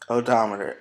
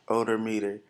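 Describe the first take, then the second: First: It is said as the usual odometer. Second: It is sounded out as odor meter. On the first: The speaker calls it right. "I do remember what the word was" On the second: The speaker calls it wrong. "I sounded it out like I was supposed to, and I said odor meter"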